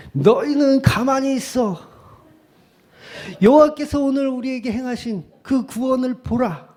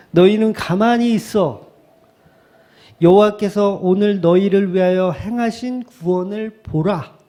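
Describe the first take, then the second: First: Moses. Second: Mildly declaimed scripture, raised pitch; attempted oratory. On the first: Acted. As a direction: declaim it like a prophet commanding the crowd. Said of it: "모세였으면". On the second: Shown as a demonstration. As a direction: read it out like a half-hearted orator. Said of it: "운변하듯이 이렇게 해야 되는데".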